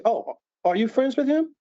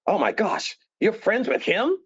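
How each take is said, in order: First: Said in the usual way. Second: "him" rising high in disbelief; leading rise. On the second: Shown as a demonstration. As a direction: make "you're friends with him?" sound shocking. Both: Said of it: "You see the difference?".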